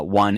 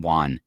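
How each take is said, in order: First: Said in the usual way. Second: WON with an open AH vowel, "wahn"; won like Juan. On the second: Shown as a demonstration. Host contrasting two words, WON said like Juan. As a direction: make WON rhyme with Juan. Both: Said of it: "I differentiate between my won".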